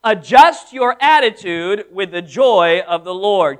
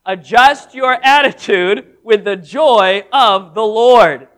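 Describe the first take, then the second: First: Each word laid down slowly and firmly; spoken slow and weighty so they can follow; slow emphatic declaration. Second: Slow and louder, leading the crowd; slow unison recital. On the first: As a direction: Adjust your attitude spelled out for the congregation to repeat. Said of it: "Could you say that with me". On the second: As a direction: call it out together, LORD landing loud. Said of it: "say that with me together". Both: Shown as a demonstration.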